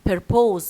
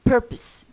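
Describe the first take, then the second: First: The second syllable is strong and full. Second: The second syllable is weak and reduced. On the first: The speaker calls it wrong. "ما تقولش انت بقى ايه purpose no" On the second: The speaker calls it right. "it is a weak vowel"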